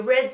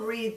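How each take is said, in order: First: The word rhymes with bed. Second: The word rhymes with seed. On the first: The action happened in the past. "I read the book yesterday" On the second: The action will happen in the future. "I will read the book tomorrow"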